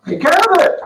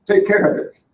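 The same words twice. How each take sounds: First: Higher, louder "Take care of it" as the solid performer; eager worker's reply. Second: Said in the usual way. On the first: Acted. Solid performer answering his boss, eager and ready. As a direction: answer like a willing worker happy to take the job. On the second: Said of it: "Here's your card".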